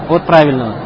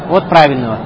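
No difference in how they are said.

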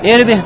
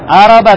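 First: The word begins with an i vowel. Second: The word begins with an a vowel. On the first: It means the private parts. "А можно прочитать «ирби»" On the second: It means desire or need. "его можно прочитать «араба»"

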